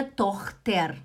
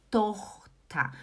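First: "Tochter" ending in a sounded "ter" with R; wrong spelled-out ending. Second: "Tochter" ending in an open "ta", no R; correct pronunciation. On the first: Teacher showing the mistake, "Tochter" read as written, TOCH-ter. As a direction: pronounce the final R in "Tochter". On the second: Teacher correcting learners, "Tochter" with final "ta". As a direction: split "Tochter" as TOCH-ta. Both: Shown as a demonstration. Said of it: "Não é Tochter".

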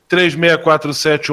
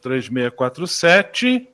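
First: Said in the usual way. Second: Slow, quiet, spelled out digit by digit while writing; repeating the phone number back slowly to write it down; slow note-taking repeat. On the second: Real, not acted. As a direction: read the number back slowly as you jot it down. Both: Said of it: "deixa eu tomar nota".

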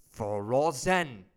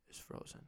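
First: FROZEN loud and stretched out; emphatic FROZEN. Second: Said in the usual way. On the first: Real, not acted. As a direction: draw out both syllables of "frozen" and punch them loudly. Emphatic repeat of the same word.

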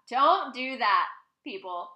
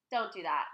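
First: "Don't do that" loud and drawn out; emphatic warning. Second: Said in the usual way. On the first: Real, not acted. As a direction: punch "Don't do that", then drop on "people". Repeats warning with more force.

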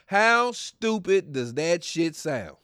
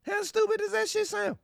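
First: "How stupid does that shit sound?" slowly, word by word; spelled-out mockery. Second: "How stupid does that shit sound?" in a far higher, squeaky voice; squeaky mock repeat. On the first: Shown as a demonstration. Telling listeners zodiac logic is dumb, slow and deliberate. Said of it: "I'm breaking this shit down". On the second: Repeating his jab at zodiac fans, in a squeaky mock voice.

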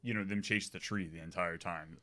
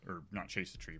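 First: Said in the usual way. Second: "not" hit with a falling accent, rest quieter; stress on not. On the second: Shown as a demonstration. Explaining the plot to friends, stress on "not". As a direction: lean on "not" to correct yourself. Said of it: "but chase around the tree".

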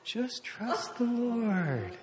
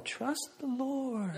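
First: Very slow, soft, hushed; calm reassurance. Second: Soft, slow, hushed trust the Lord; calm reassurance. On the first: Wife gently repeating to her panicking husband, slow and soft. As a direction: draw it out soothingly, near a whisper. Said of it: "She's going". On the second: Wife calming her panicking husband, soft and slow. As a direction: soothe him gently, almost a whisper. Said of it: "Renee's going". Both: Retold or imitated.

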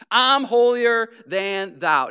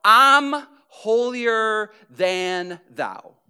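First: Smug and a bit louder; self-righteous repeat; holier than thou. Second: Slow, drawn-out smug sneer; a smug, drawn-out holier-than-thou. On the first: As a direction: repeat it with a superior sneer. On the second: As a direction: sound self-righteous and superior. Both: Retold or imitated. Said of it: "what I call".

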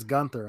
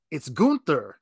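First: "Gunther" with a short u, like "gun"; announcer's GUN-ther. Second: "Gunther" with a long oo, like "goon"; correcting to GOON-ther. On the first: Announcer contradicts the correction, "Gunther" said GUN-ther. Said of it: "then the announcer says Gunther". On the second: Commentator correcting his partner, "Gunther" said GOON-ther. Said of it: "Cole was correcting Pat". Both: Retold or imitated.

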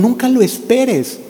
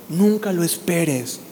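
First: Nunca lo esperes lifted higher and drawn out; higher, slower insistence. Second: Nunca lo esperes dropped softer and slow; soft, slow aside. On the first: Preacher repeats the warning to the congregation, higher and slow. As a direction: ring it out higher, slowly. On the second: Preacher softly warns the congregation, quiet and slow. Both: Shown as a demonstration.

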